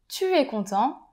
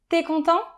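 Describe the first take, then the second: First: The word tu is said in full. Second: The word tu is shortened to a t sound. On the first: "au lieu de dire" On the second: "je vais dire"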